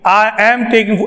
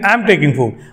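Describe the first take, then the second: First: I and am are said as two separate words. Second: I and am are joined into one syllable. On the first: The speaker calls it wrong. "ऐसे नहीं" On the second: The speaker calls it right. "आई एम को एक साथ बोलना है"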